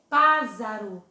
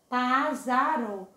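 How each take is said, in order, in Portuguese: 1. A consoante do meio tem som de Z sonoro. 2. A consoante do meio tem som de Z sonoro.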